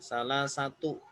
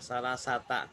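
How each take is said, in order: First: The word ends with a 'u' vowel. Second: The word ends with an 'a' vowel. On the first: The speaker calls it right. "Dia dibaca domah" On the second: The speaker calls it wrong. "Kenapa akhirannya tak?"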